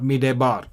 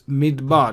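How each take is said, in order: First: A short vowel is heard between d and b. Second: No vowel is heard between d and b. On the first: The speaker calls it wrong. "It's not midebar" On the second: The speaker calls it right. "We don't pronounce the schwa under the dalit here"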